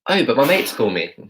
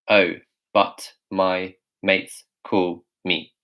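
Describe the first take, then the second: First: It is said in a relaxed, natural, fluent voice. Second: It is said in a flat, mechanical robot voice. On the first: The speaker calls it right. "how we would say this is" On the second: The speaker calls it wrong. "if a robot was saying this, they would say"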